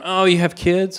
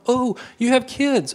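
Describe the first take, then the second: First: It sounds cold and unwelcoming. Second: It sounds warm and welcoming.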